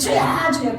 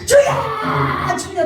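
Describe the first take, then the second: First: The cry is said at a lower volume. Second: The cry is said much louder. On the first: People pray for a troublesome husband. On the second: People pray for their children and cry out.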